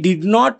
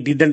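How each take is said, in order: First: It is said as two separate full words. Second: It is said as one contracted word. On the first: "आता पुन्हा मी डिड नॉट वाचलं" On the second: "खरं तर हे डिडंट आहे"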